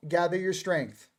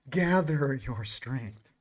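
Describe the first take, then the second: First: Said in the usual way. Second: Drawn out, lower and softer; slow, low delivery for emphasis; slow, hushed repeat. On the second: Real, not acted. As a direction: stretch each word slowly and quietly. Same card line repeated for effect.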